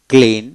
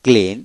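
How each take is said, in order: Both takes have the same delivery.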